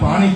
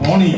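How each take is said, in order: First: It is said with a standard Gujarati 'aa' vowel. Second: It is said with a North Gujarati 'o' vowel. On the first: "એને પાણી કે આપણે શિષ્ટ ભાષામાં" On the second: "ઉત્તર ગુજરાતમાં પોણી કે"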